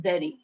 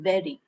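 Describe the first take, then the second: First: It begins with a v sound. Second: It begins with a v sound.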